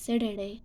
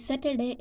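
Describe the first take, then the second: First: The middle consonant is a soft d. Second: The middle consonant is a clear t.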